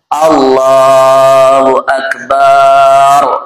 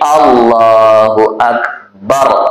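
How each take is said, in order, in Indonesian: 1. Vokal setelah b dalam Akbar dipanjangkan. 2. Vokal setelah b dalam Akbar pendek. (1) "Jadi kalau baknya panjang artinya gendang" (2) "langsung ketemu ra. Jangan dipanjangi baknya"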